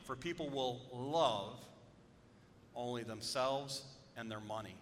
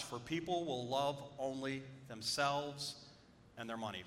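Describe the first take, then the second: First: "people" and "themselves" stressed, slow and deliberate; slow emphatic reading. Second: Said in the usual way. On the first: Shown as a demonstration. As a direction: lean on "people", then land hard on "themselves". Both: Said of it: "when I emphasize words".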